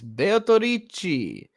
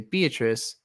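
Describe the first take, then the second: First: It has five syllables and ends in 'chi'. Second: It has fewer syllables and ends in 's'. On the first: "That's how they say it in Japanese" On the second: "in English, that's the name is Beatrice"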